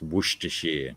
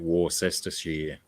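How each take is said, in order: First: It is pronounced in a shorter, reduced form. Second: It is pronounced the way it is spelled. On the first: The speaker calls it right. "but it's" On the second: The speaker calls it wrong. "As if you wouldn't just read it"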